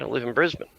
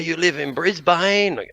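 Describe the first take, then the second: First: Brisbane is pronounced the way locals say it. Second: Brisbane is pronounced the way outsiders say it. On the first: Someone who lives there is saying it. The speaker calls it right. "No, mate" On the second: Someone from elsewhere is saying it. The speaker calls it wrong. "Love hearing people go"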